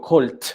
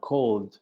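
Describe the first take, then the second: First: The word ends with a voiceless t sound. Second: The word ends with a voiced d sound. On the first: The speaker calls it wrong. "ya no digo colt" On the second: The speaker calls it right. "sino cold. D, una D"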